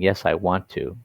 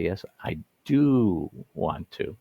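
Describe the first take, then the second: First: Said in the usual way. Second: Slow "Yes, I do want to" with "do" leaned on; slow down and stress "do". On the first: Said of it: "instead of saying". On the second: Shown as a demonstration. Teacher showing the stronger answer with "do". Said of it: "we say".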